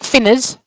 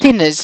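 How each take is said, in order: First: The word begins with an f sound. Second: The word begins with a th sound. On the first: The speaker calls it wrong. "not a f" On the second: The speaker calls it right. "It begins with a th"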